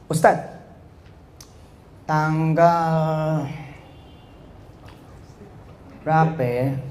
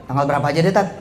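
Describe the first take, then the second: First: Dragged-out words with long pauses; mock hesitant drawl. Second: Said in the usual way. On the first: Preacher mimics someone dithering over a date to Ustaz, hesitant. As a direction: stall and stretch it, imitating a hesitant speaker. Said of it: "Lah, lu mau ngomong apaan?". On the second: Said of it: "Gitu ngomongnya daripada".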